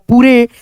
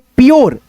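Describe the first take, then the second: First: It is said as two syllables, poo-reh. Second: It is said as one syllable, pyoor. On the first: The speaker calls it wrong. "तो ये गलत हो जाएगा" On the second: The speaker calls it right. "तो यहाँ पे पढ़ेंगे प्योर"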